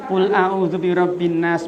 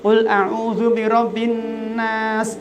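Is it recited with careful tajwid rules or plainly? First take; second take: plainly; careful tajwid. First: Recited plainly without tajwid nasalization or lengthening. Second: Recited with careful nasalization and lengthening rules. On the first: It is recited as remembrance. "dikit mboten" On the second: It is recited as Quran reading. "Nek pakai tajwid nggih"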